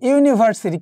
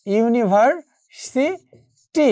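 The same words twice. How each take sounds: First: Said in the usual way. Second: university slowed, pausing before সি and টি; university spelled out slowly by sound; broken into syllables. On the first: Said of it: "আমি যদি একটি শব্দ বলি". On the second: Shown as a demonstration. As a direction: say university in separated pieces, ইউনিভার-সি-টি. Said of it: "একটু খেয়াল করে দেখো".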